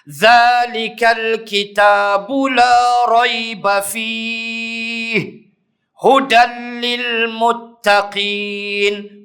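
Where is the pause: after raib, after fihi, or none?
after fihi. There is a pause after fihi. "Wajah yang kedua"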